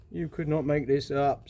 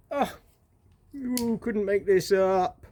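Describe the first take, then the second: First: "could not" said in full, evenly; measured, word-by-word disbelief; emphatic disbelief. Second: Slow, drawn-out, higher-pitched disbelief; long incredulous drawl; exasperated disbelief. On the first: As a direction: spell out "not" as a separate word. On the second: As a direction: stretch out "you couldn't make this up". Exasperated repeat, contracted then full. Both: Real, not acted.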